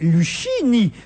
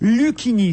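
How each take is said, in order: First: The middle consonant sounds like sh. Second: The middle consonant sounds like k. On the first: "prononcer le C H comme chien" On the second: "c'est-à-dire à la française"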